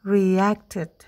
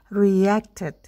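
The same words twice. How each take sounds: Both takes have the same delivery.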